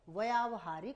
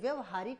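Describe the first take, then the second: First: The first vowel is long. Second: The first vowel is short. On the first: The speaker calls it right. "लेकिन ये व्यावहारिक होता है, शुद्ध" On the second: The speaker calls it wrong. "जैसे व्यवहारिक बोल देते हैं"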